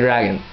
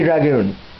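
First: The second syllable has a short 'uh' vowel. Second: The second syllable has a long 'oo' vowel. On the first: "I say Dragon" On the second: "I don't say Dragoon"

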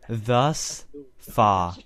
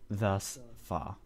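First: The th sound at the start is not clear. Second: The th sound at the start is clear. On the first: The speaker calls it wrong. "Sorry. I can't pronounce my th" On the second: The speaker calls it right. "There we go"

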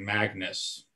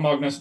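First: The name is said in an American accent. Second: The name is said in a Norwegian-style accent.

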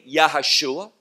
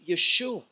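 First: The name is said with four syllables. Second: The name is said with three syllables. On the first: The speaker calls it wrong. "some mispronounce the name of Messiah by saying Yahashua" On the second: The speaker calls it right. "No, we see Yeshua"

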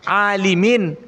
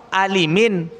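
Both takes have the same delivery.

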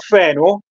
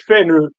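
First: The name ends in a plain o sound. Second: The name ends in a rounded u-like sound. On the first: "si chiama Feno" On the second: "con la O sbarrata"

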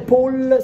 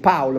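First: The name is said in a non-German way. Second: The name is said in the German way. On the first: The speaker calls it wrong. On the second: The speaker calls it right.

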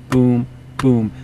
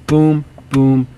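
No difference in how they are said.

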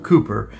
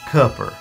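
First: The first vowel does not sound like in foot. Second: The first vowel sounds like in foot. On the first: It is the usual pronunciation elsewhere. "as opposed to Cooper" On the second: It is the local Eastern North Carolina pronunciation. "so sounding like Foot Cooper"

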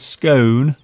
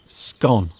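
First: The word is said in a posh way. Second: The word is said in a plain way. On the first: "Mr. Steve pronounces it in a very posh way" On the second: "and I don't"

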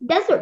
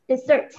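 First: The stress is on the first syllable. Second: The stress is on the second syllable. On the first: It means a dry, sandy region. "ถ้าฟังดีๆนะคะมันจะเน้นตัวพยางค์ที่1" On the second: It means a sweet dish after a meal. "มันจะเน้นพยางค์ที่สองนะคะ"

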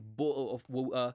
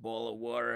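First: It is said with a British accent. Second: It is said with an American accent. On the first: "and I say" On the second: "she uses American pronunciation and she says things like"

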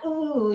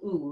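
First: The ooh sounds strained and pained. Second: The ooh sounds mild and gentle. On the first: The stretch has gone too far and hurts. The speaker calls it wrong. "not ooh, you don't want to go to that really owie part" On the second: A light stretching sensation is felt. The speaker calls it right. "that little ooh"

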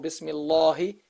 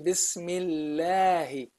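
First: The l sound is heavy and deep. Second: The l sound is light and thin. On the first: The speaker calls it wrong. "or you don't say Bismillahu, no, or Bismillahi" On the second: The speaker calls it right. "the name of Allah becomes Allah, a light name. You say Bismillahi"

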